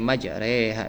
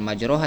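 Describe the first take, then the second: First: The vowel after r sounds like e. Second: The vowel after r sounds like o. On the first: The speaker calls it right. "jadi dibacanya majreha" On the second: The speaker calls it wrong. "bukan majroha"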